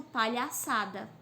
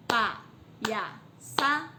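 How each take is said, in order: First: Said in the usual way. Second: "Palhaçada" very slow in four beats, pa, lha, ça, da; syllable by syllable. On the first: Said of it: "quando ela tem quatro sílabas ou mais". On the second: Shown as a demonstration. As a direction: clear pause after each syllable of "Palhaçada". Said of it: "Quatro sílabas".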